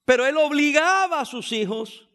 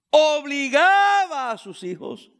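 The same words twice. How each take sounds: First: Said in the usual way. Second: Obligaba drawn out slowly with weight; slow emphatic repeat. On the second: Shown as a demonstration. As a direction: hammer obligaba, slow and heavy.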